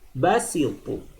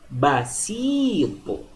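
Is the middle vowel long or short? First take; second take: short; long. First: The middle vowel is cut short. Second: The middle vowel is held long. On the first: "Bedakan dengan basitu" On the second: "Ini dibaca panjang"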